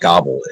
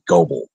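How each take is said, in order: First: The first vowel is short, rhyming with wobble. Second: The first vowel is long, rhyming with noble. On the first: The speaker calls it wrong. "It's not Gobble" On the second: The speaker calls it right. "It's actually Goble"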